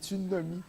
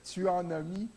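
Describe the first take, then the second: First: 'En' shrinks to 'n', sounding like tsunami. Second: Every word is said fully, with 'en' kept. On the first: "dans le langage courant, on dit tu n'as mis" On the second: "au lieu de dire tu en as mis"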